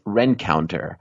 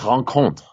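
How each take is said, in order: First: The name is said with English-style sounds. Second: The name is said with French-style sounds. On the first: The speaker calls it wrong. "you know which one drives me nuts? ... That's insane" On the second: The speaker calls it right. "It's a French"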